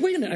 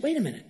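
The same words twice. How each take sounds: First: Higher and louder, jumping in to help; a quick, eager offer to the man in the wheelchair; eager wait a minute. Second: Said in the usual way. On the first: Retold or imitated. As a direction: call it out keen and bright. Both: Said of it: "I said".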